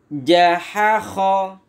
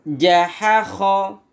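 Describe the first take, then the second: The two takes are said the same way.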